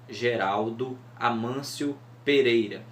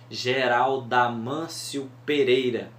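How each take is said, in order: First: A pause keeps the O and A separate. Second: The O and A merge into one syllable. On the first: The line goes past seven syllables. The speaker calls it wrong. "se a gente falar dando essas pausas" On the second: The line keeps seven syllables. The speaker calls it right. "quando o O se juntam com o A no Geraldo Amâncio"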